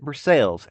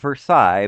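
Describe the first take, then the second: First: It is pronounced the local Kentucky way. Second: It is pronounced the French way. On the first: "in Kentucky, they pronounce it Versailles" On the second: "spelled like the French word Versailles"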